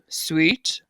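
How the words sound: The word is said at a low pitch. "say sweet, but say it low?"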